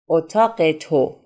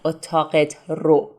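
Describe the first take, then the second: First: The two words run together into one. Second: The two words are said separately. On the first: This is the fast spoken form. The speaker calls it right. "when we want to speak fast, we say اتاق تو" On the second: This is the slower full form. The speaker calls it wrong. "not اتاقت رو"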